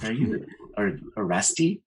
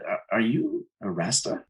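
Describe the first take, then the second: First: "Rasti" ending in an ee sound; "Rasti" said as RASS-tee, as a question; mispronouncing Rasta. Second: Said in the usual way. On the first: Retold or imitated. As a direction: retell her wrong word, "Rasti" with -ee for -a. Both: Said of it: "She didn't even say it right".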